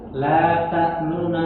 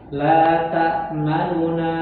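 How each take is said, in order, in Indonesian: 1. Vokal u pada n pertama dibaca cepat dan melemah. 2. Vokal u pada n pertama dibaca penuh. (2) "Kalau dibaca sempurna kan biasa. ... Itu normal"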